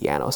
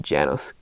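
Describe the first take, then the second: First: The name begins with a Y sound. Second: The name begins with a J sound. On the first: "If it's pronounced as a Y" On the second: "do you pronounce the J"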